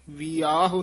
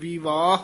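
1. ਵਿਚਕਾਰਲੀ v ਧੁਨੀ ਛੱਡ ਦਿੱਤੀ ਜਾਂਦੀ ਹੈ। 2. ਵਿਚਕਾਰਲੀ v ਧੁਨੀ ਸਾਫ਼ ਉਚਾਰੀ ਜਾਂਦੀ ਹੈ। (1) "ਵਿਆਹ ਨਹੀਂ ਕਹਿਣਾ" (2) "ਧਿਆਨ ਨਾਲ ਵਿਵਾਹ ਹੀ ਉਚਾਰਨ ਕਰਨਾ"

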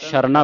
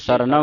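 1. ਸ਼ਬਦ 'sh' ਧੁਨੀ ਨਾਲ ਸ਼ੁਰੂ ਹੁੰਦਾ ਹੈ। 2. ਸ਼ਬਦ 's' ਧੁਨੀ ਨਾਲ ਸ਼ੁਰੂ ਹੁੰਦਾ ਹੈ। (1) "ਇੱਥੇ ਕਈ ਸੰਗਤਾਂ ਨੂੰ ਸ਼ਰਨਾ ਪੜ ਜਾਂਦੀ ਹੈ। ਸ਼ਰਨਾ ਤਾਂ ਉਚਾਰਨ ਹੋਵੇਗਾ ਜੇ ਬਿੰਦੀ ਲੱਗੀ ਹੋਵੇ" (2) "ਇਹ ਸਰਨਾ ਉਚਾਰਨ ਕਰਨਾ ਹੈ"

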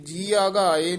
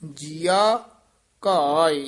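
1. ਦੋਵੇਂ ਸ਼ਬਦ ਜੁੜੇ ਹੋਏ ਹਨ। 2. ਦੋਵੇਂ ਸ਼ਬਦ ਥੋੜ੍ਹੇ ਜਿਹੇ ਵੱਖਰੇ ਹਨ। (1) "ਇਹ ਜੀਆ ਘਾਏ ਨਹੀਂ ਪਾਠ ਕਰਨਾ" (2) "ਥੋੜਾ ਜਿਹਾ ਨਖੇਰ ਕੇ ਪਾਠ ਕਰਨਾ ਹੈ"

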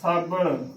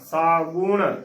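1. ਦੂਜੇ ਅੱਖਰ ਵਿੱਚ 'a' ਸਵਰ ਹੈ। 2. ਦੂਜੇ ਅੱਖਰ ਵਿੱਚ 'u' ਸਵਰ ਹੈ। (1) "ਬੱਬਾ ਮੁਕਤਾ ਨਾਣਾ ਸਾਬਣ। ਸੋ ਇਹ ਵੀ ਇਸਦਾ ਗਲਤ ਉਚਾਰਨ ਹੈ" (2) "ਬੱਬੇ ਨੂੰ ਦਲੈਂਕੜ ਬੂ ਨਾਣਾ"

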